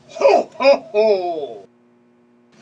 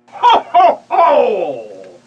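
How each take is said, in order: First: The laugh is delivered at moderate size. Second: The laugh is delivered very big and loud.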